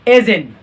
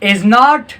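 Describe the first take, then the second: First: It is contracted with the final t dropped. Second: It is said as two full words. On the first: "तीसरा पर हमारे पास आता है एजिन"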